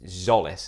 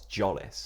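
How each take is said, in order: First: The name begins with a Z sound. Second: The name begins with a J sound. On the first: The speaker calls it right. "And it's Zolis" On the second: The speaker calls it wrong. "I keep saying Christos Jolis"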